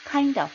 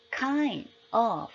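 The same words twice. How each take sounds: First: "kind of" joined as kain-duv, higher; native linked kind of. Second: KIND and OF as two separate words; "kind of" without linking; kind of, unlinked. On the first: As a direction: say "kind of" like one word. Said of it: "원어민들은". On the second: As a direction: say "kind", then "of", apart. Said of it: "우린 이렇게 발음하잖아요". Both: Shown as a demonstration.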